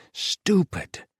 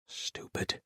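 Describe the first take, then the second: First: High, loud self-reproach; loud outburst. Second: Whispered. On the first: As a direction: snap at yourself. Self-reproach, second take shouted. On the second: Self-reproach, whispered then shouted. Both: Acted.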